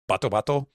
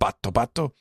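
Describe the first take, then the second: First: The t sound is short, not held. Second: The t sound is doubled, with a catch. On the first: This is the newer way of writing the name. "with the way that I write the names now" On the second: This is the older way the name was written. "with the extra T sound"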